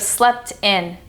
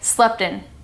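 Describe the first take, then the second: First: The T sound is clearly pronounced. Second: The T sound is left out. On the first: "instead of" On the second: "The reason the T would be omitted"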